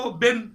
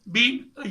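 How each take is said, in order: First: The vowel is short, like 'bin'. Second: The vowel is long, like 'bean'. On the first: "बिन short form है" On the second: "बीन इसकी long form है"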